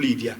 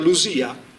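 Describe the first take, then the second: First: The middle consonant is a plain d sound. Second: The middle consonant is a voiced z sound. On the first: It is the modern reading of the name. The speaker calls it wrong. "non è più Lidia" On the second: It is the ancient reading of the name. The speaker calls it right. "quindi diventa Lusia"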